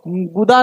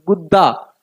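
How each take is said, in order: First: The middle d sound is short and single. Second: The middle d sound is held and doubled. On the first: The speaker calls it wrong. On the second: The speaker calls it right.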